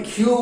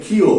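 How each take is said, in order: First: ক্ষীয় said as "khyu"; common variant pronunciation. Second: ক্ষীয় said as "khiyo"; correct letter name. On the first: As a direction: run ক্ষীয় together into khyu, ending in oo. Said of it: "অনেকে দেখবে এই কারণে". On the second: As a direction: say ক্ষীয় as khi-yo, ending in o. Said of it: "এর উচ্চারিত নাম হবে". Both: Shown as a demonstration.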